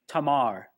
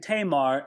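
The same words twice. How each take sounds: First: The first vowel sounds like ah. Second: The first vowel sounds like ay. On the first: The speaker calls it right. "A's are always pronounced, never A in most other languages, but ah" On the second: The speaker calls it wrong. "I've been saying Tamar"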